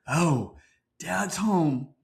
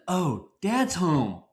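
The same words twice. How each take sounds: First: It sounds dreading and uneasy. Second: It sounds happy and welcoming.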